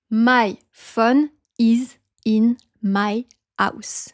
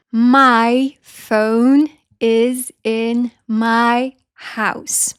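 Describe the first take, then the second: First: Slow French accent, PHONE as short "fon"; French-accented HOUSE with the H dropped; word by word, French pure vowel in PHONE; French accent, no diphthongs. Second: Very slow, PHONE glides as "foh-oon"; drawn-out English glides in MY, PHONE, HOUSE; full diphthongs. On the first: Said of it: "we forget about these diphthongs". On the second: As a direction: stretch both vowel sounds in MY and HOUSE. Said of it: "deux sons de voyelles are pronounced together". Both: Shown as a demonstration.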